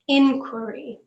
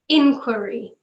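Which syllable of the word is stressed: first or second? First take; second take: first; first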